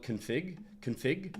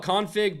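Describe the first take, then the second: First: "config" as kun-FIG, reduced first vowel; second-syllable stress. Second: "Config" as CON-fig, full open "con"; first-syllable stress. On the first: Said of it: "always call it". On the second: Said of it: "I call it Config". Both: Shown as a demonstration.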